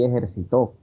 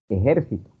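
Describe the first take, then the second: First: The stress is on the last syllable. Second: The stress is on the second syllable. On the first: "Algunos escuché por ahí"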